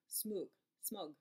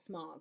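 First: The vowel sounds like the one in 'book'. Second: The vowel sounds like the one in 'log'. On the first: The speaker calls it right. "It's like book" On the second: The speaker calls it wrong. "in my mind I call it smog, and that's not the way to pronounce it"

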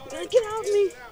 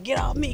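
First: The voice is put on higher and lighter. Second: The voice is put on low and deep. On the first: The other side of the child is speaking. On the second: One side of the child is speaking.

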